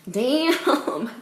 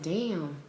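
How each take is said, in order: First: Higher, drawn-out exclamation; emphatic amazement. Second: Stunned, quiet reaction. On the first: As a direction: stretch it out, really impressed. Repeated bigger damn. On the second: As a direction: let it drop softly, taken aback. First quiet stunned damn. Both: Retold or imitated.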